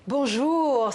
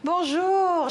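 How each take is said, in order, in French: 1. Le bonjour semble chaleureux et affectueux. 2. Le bonjour semble ravi et heureux. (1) "c'est bon de te voir" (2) "je suis contente de te voir"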